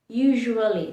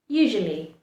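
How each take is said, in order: First: Every letter, including the second vowel, is sounded. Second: The second vowel is dropped and the s sounds like z. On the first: The speaker calls it wrong. "that's the incorrect pronunciation" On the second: The speaker calls it right. "is the correct pronunciation"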